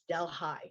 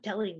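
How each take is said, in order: First: It is pronounced the local upstate New York way. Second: It is pronounced like the Indian city's name. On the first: It names the local New York township. The speaker calls it right. "It's Delhi. We say it differently" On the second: It names the city in India. The speaker calls it wrong. "it's not Delhi"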